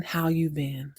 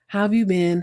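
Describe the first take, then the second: First: Lower, softer retold reply; low echo of the question; second character asking back. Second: Lightly voiced greeting at usual pitch; retold question, plainly put; first character asking. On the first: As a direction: answer in a low, quiet voice. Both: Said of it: "They ask each other how they've been".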